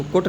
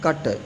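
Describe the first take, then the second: First: कुट with a rounded short vowel; wrong reading of cut. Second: कट with a short 'uh' vowel; correct reading of cut. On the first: (गलत उच्चारण, कुट में गोल स्वर) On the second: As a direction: say कट short and unrounded. (सही उच्चारण, कट में छोटा 'अ') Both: Shown as a demonstration. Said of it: "इसको कुट नहीं पढ़ेंगे".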